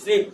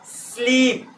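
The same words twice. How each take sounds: First: The opening s is brief and quick. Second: The opening s is drawn out as a breath.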